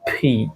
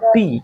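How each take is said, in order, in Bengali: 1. 'P' ধ্বনিতে বাতাসের জোরালো ফুৎকার আছে। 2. 'P' ধ্বনিতে বাতাসের কোনো ফুৎকার নেই। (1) "এটার উচ্চারণটা ফি" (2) "এটাকে আমরা সাধারণত পি বলে থাকি"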